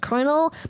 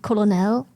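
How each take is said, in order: First: The word is said the American way. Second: The word is said in a German-style reading. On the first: "every every American always says colonel" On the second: "I'm German and the way I want to pronounce it is colonel"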